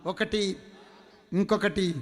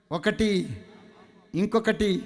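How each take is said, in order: Both takes have the same delivery.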